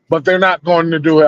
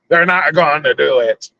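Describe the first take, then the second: First: It is said in his normal voice. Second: It is said in a put-on pirate voice.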